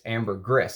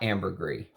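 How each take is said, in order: First: The final S is clearly pronounced. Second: The final S is left silent. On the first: The speaker calls it right. "you're supposed to pronounce that S" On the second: The speaker calls it wrong. "it's not ambergris"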